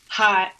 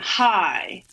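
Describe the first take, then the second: First: The vowel is short, as in plain speech. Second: The vowel is drawn out, almost two syllables.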